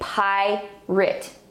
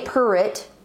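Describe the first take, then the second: First: The first vowel is a long 'eye' sound. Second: The first vowel is an r-colored 'er' sound. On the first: The speaker calls it right. "we say pirate" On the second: The speaker calls it wrong. "we don't say pirate"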